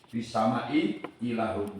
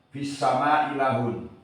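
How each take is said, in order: First: Both glottal stops are clearly pronounced. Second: The first glottal stop is dropped entirely. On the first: "dengan menjelaskan dua hamzah" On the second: "menggugurkan hamzah yang pertama"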